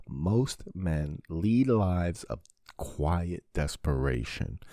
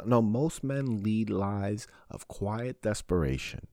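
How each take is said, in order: First: Every word of the quote drawn out slowly; slow, weighty quote. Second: Said in the usual way. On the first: Shown as a demonstration. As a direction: let the quote sink in, word by word. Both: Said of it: "Henry David Thoreau".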